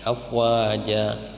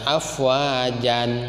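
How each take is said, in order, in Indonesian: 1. Kata ini berakhir dengan vokal panjang, tanpa n. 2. Kata ini berakhir dengan bunyi n. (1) "Tapi diganti menjadi afwaja. ... Dua harokat" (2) "Jangan dibaca afwajan"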